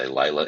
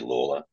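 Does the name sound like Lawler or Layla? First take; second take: Layla; Lawler. First: The name sounds like 'Layla', without an r. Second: The name sounds like 'Lawler', with an l. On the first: The speaker calls it wrong. "Most people say Layla" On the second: The speaker calls it right. "It's actually Lawler"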